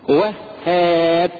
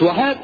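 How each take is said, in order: First: The h sound is held long and doubled. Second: The h sound is short and single. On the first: It names the Bestower. The speaker calls it right. "وهاب مش وهاب" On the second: It sounds like a word meaning he feared. The speaker calls it wrong. "هاب يعني خاف"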